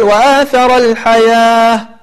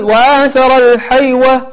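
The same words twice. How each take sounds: First: الحياة said with a long a, no w; correct reading. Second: الحيوة said with a w sound as spelled; wrong reading. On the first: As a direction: read الحياة with alif sound. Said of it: "ولكن تقول". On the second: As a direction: read الحيوة pronouncing the waw. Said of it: "أنك لا تقول". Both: Shown as a demonstration.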